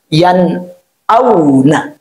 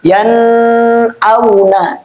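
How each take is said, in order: First: The n is clear and not held. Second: The n is clear but held long. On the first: The speaker calls it right. "jelas bacaannya" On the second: The speaker calls it wrong. "dia jelas tapi ditahan"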